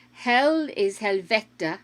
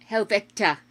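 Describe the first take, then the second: First: Helvete said slowly as hel-ve-te; Norwegian word. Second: Helvete repeated alone, stress on the first syllable hel; Norwegian word repeated. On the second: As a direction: say Helvete again on its own. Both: Shown as a demonstration. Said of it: "most common swear words used by Norwegians".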